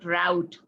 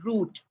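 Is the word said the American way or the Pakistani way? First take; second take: American; Pakistani. First: It is said the way Americans say it. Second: It is said the way Pakistanis say it. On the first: "in America, they pronounce it route" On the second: "in Pakistan, we pronounce this word root"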